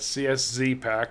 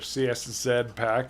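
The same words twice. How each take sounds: First: The Z is said the American way. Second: The Z is said the British way.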